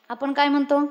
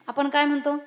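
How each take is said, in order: Both takes have the same delivery.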